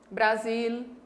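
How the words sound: The final L sounds like a real L. "em regiões do sul do Brasil se fala"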